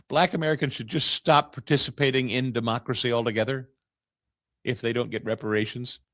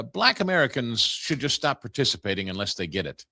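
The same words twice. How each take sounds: First: Incredulous laugh. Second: Said in the usual way. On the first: Real, not acted. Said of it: "You explain that to me?".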